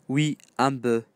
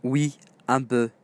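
The two takes are said the same way.

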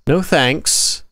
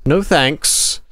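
Both takes have the same delivery.

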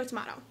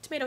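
First: "tomato" said tuh-MAH-toh; broad AH in the middle of "tomato". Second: "tomato" said tuh-MAY-doh; long AY in the middle of "tomato". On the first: Shrugging off how the brand is said, "tomato" with an AH. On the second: Shrugging off how the brand is said, "tomato" with an AY. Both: Shown as a demonstration. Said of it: "it was pronounced crave".

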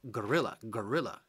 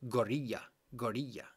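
First: Gorilla with a clear English L, "guh-RIL-uh"; correct English pronunciation. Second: Gorilla with the double L as a Spanish y sound; Spanish-style mispronunciation. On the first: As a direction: model gorilla in English, L fully sounded. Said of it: "we don't have the L L, the e-, eye sound in English". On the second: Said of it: "in Spanish, a lot of the Spanish people, when you pronounce it". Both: Shown as a demonstration.

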